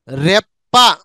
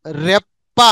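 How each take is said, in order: Both takes have the same delivery.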